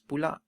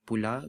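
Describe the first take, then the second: First: The word ends with a stop closure. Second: The word ends on an open vowel.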